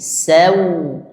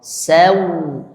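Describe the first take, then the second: Both takes have the same delivery.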